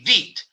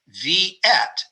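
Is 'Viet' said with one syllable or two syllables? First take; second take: one syllable; two syllables. First: The word is said with one syllable. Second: The word is said with two syllables. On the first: This is how Vietnamese people say it. "they don't have two syllables in Viet. They say Viet" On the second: This is how many Americans say it. "we would say Viet, and that's two syllables"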